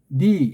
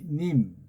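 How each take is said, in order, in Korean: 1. 마지막 m은 살짝만 발음해요. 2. 마지막 m은 세게 발음해요. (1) "살짝 니" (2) "님하고 세게 받침하면 딴 나라 말이 안 되니까"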